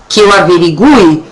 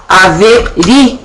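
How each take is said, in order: First: "averigue" said with the U, stress on the U; first form. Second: "averigue" slowly, stress on the I; second form. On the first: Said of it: "a gente dizer assim". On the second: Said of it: "nós poderemos dizer". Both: Shown as a demonstration.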